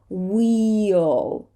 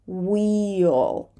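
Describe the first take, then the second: The two takes are said the same way.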